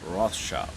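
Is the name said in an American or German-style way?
American. The name is said with an American pronunciation. "but I'm American, so it's Rothschild"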